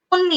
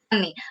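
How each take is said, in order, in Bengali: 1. প্রথম স্বরধ্বনিটি গোলাকার 'o' ধ্বনি। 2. প্রথম স্বরধ্বনিটি খোলা 'a' ধ্বনি। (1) "তন্নি না"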